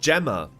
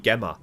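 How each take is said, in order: First: The name is said with an English pronunciation. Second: The name is said with a German pronunciation. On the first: The speaker calls it right. "Her name is pronounced Gemma" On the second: The speaker calls it wrong. "In German, it would be Gemma"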